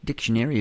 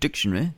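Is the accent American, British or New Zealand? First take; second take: American; British. First: It is said in an American accent. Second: It is said in a British accent.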